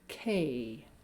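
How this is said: The vowel has a small pitch change. The speaker calls it right. "incorporating a small pitch change"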